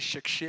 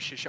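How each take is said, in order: First: The word is said with strong, drawn-out emphasis. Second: The word is said plainly, without extra emphasis. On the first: The speaker calls it right. "on dit chercher l'argent ... on accentue" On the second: The speaker calls it wrong. "on ne dit pas chercher"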